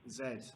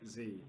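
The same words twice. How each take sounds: First: The letter is said as British "zed". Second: The letter is said as American "zee". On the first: "we pronounce that as Z in England" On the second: "not Z"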